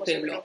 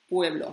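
First: The word is said with a German-style pronunciation. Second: The word is said with a native Spanish pronunciation. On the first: The speaker calls it wrong. "ellos lo pronuncian como pueblo" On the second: The speaker calls it right. "esto es español y soy española. Y se dice pueblo"

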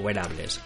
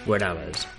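First: The word is said with English-like pronunciation. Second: The word is read with Spanish pronunciation.

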